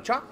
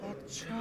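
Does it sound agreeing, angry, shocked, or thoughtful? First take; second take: shocked; thoughtful. First: It sounds surprised and shocked. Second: It is drawn out long and thoughtful.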